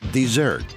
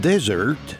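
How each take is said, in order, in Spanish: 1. El acento está en la segunda sílaba. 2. El acento está en la primera sílaba. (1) "Se dice correctamente dessert" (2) "está pidiendo un desierto como el Sahara"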